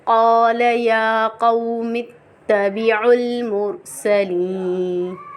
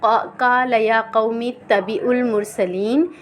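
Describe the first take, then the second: First: The phrase is recited slowly with lengthened vowels. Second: The phrase is recited quickly without lengthened vowels. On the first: The speaker calls it right. "Proper मखरज से पढ़ना है और जल्दी से नहीं पढ़ना" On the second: The speaker calls it wrong. "अक्सर लोग पढ़ते हैं ... तो ऐसे नहीं"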